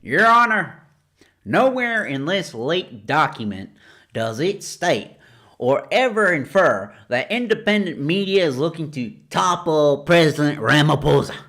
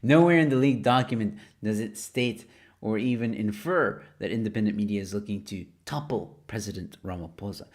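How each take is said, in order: First: It is read in a Southern lawyer accent. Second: It is read in a plain voice.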